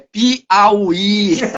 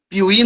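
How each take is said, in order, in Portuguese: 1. A vogal 'a' do meio é mantida. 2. A vogal 'a' do meio é apagada. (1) "é Piauí" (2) "Piuí não existe"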